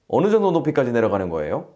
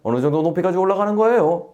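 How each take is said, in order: First: It is spoken in a standard Seoul accent. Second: It is spoken in a Gyeongsang dialect accent. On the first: "서울말" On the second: "경상도말"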